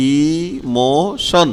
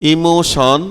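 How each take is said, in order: First: "ইমোশন" very slowly as ee, mo, shon; drawn-out syllables. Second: Said in the usual way. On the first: Shown as a demonstration. Teacher showing t sounds like sh in emotion, drawn-out syllables. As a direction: stretch each syllable of "ইমোশন", ending on sh. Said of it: "এই যে স এর মতো উচ্চারণ হয়েছে". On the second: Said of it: "এখানে টিটাও এই যে স এর মতো".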